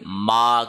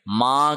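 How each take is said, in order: First: The vowel is said through the mouth. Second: The vowel is said through the nose. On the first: The speaker calls it right. "मुंह से सांस लेना है" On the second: The speaker calls it wrong. "इसको नाक में ना पढ़ा जाए"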